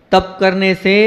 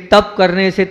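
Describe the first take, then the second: No difference in how they are said.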